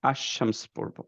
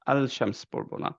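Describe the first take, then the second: First: আশ-শামস with the L merged into SH; আশ-শামস, doubled sh, no L sound; say ash-shams. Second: আল-শামস with a clear separate L; আল-শামস, the L said out in full; wrong al-shams. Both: Shown as a demonstration. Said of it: "কিন্তু পড়বো হচ্ছে আশ".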